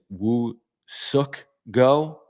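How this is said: The name is said with a Korean pronunciation. This is how Korean sources say it. "some videos in Korean where they were saying"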